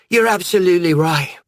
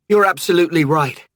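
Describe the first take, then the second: First: The words are slurred, like a drunk. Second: The words are spoken clearly.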